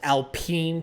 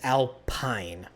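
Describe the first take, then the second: First: The last syllable sounds like 'peen'. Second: The last syllable sounds like 'pine'. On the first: The speaker calls it wrong. "pronounced Alpine technically" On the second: The speaker calls it right. "P I N E is pine, not peen"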